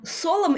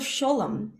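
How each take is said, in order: First: The word begins with a plain s sound. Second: The word begins with an sh sound. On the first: "an S instead of a sh" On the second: "instead of sholem"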